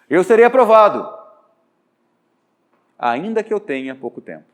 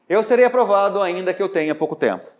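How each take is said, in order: First: There is a pause before 'ainda que'. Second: It flows without a pause before 'ainda que'. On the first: "Agora eu vou pôr uma vírgula" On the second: "Falei sem pausa, sem vírgula"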